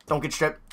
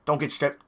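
Both takes have the same delivery.

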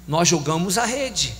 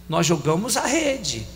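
The two takes are said the same way.

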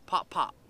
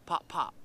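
The two takes are said the same way.

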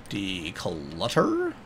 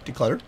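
First: Very slow, low DECLUTTER; drawn-out word. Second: Said in the usual way. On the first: Pretend. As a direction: stretch out every syllable of DECLUTTER, quietly. Same word repeated, drawn out.

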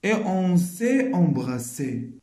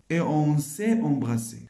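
First: Slow, each word drawn out; slow careful reading; slow reading after pause. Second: Said in the usual way. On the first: Shown as a demonstration. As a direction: read it slowly after a short pause.

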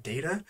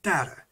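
First: Data said DAY-tuh, with a long A; first way of data. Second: Data said DAT-uh, with a short flat A; second way of data. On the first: Showing there are two ways, data as DAY-tuh. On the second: Showing there are two ways, data as DAT-uh. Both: Shown as a demonstration. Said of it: "there is two ways".

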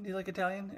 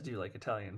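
First: Kirk's question, a little higher; a mild imitation of Kirk asking her out; lightly voiced Kirk. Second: Lightly voiced Gillian, lower. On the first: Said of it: "no, he asked her to get dinner". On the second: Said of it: "and she says".

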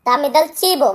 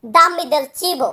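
First: Said in the usual way. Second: Dammi del cibo said very slowly, word by word; slow it down for learners to follow; careful, slow model pronunciation; slow teaching model. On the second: Shown as a demonstration. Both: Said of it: "তাহলে আমরা বলতাম".

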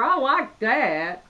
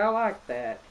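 First: Admiring. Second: Said in the usual way. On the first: Real, not acted. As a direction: linger on each word, genuinely pleased. Admiring the gift wrapping.

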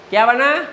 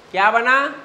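No difference in how they are said.

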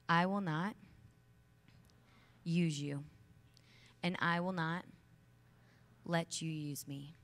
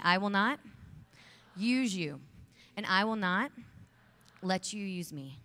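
First: Each phrase set apart by pauses, ending slow; firm declaration. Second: Loud rallying vow. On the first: Speaker modelling the vow for the audience, firm and paused. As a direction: plant each phrase firmly for them to repeat. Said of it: "I want you to repeat them after me". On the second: Speaker leading the women in a loud chant of the vow. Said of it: "Repeat after me". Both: Shown as a demonstration.

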